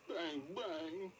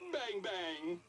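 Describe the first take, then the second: First: It is said in a sad tone. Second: It is said in a happy tone.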